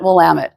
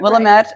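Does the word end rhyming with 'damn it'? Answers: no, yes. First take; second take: yes; no. First: The ending rhymes with 'damn it'. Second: The ending does not rhyme with 'damn it'. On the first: The speaker calls it right. "the way that we remember it is, damn it, Willamette" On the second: The speaker calls it wrong. "a lot of people call it Willamette"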